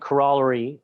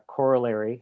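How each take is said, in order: First: The word is said with a Canadian pronunciation. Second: The word is said with an American pronunciation.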